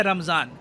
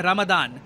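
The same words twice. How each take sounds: First: "रमज़ान" with a z sound; subcontinental pronunciation. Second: "रमदान" with a d sound. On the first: Explainer telling what we call it here, subcontinental pronunciation. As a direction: pronounce "रमज़ान" with z, not d. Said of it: "यहाँ पे हम लोग कहते हैं". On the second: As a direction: pronounce "रमदान" with d, not z. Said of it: "वहाँ पे वो लोग कहते हैं". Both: Shown as a demonstration.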